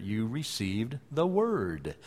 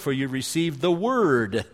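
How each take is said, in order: First: Slow soft repetition of "You received the word"; hushed, deliberate restatement of "received the word"; emphatic echo. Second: Said in the usual way. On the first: Shown as a demonstration. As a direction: lean on "word" slowly and quietly. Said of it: "echoes verse slowly for emphasis". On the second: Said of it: "reading verse then echoing it".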